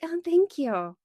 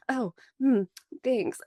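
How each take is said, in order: First: High-pitched mock-polite thank you; insincere thanks. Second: Imitating an awkward, guarded reply; hesitant, uncomfortable mock thanks; weirded-out thanks. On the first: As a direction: imitate a thanks you don't really mean. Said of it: "they didn't mean it". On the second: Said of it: "act really weird about it".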